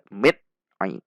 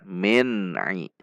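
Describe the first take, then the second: First: The n is cut off abruptly with a jerk. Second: The n is held briefly and released clearly. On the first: The speaker calls it wrong. "Tidak juga boleh dibaca mit ai. Itu bacaan menghentak" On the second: The speaker calls it right. "Namun dibaca min ai"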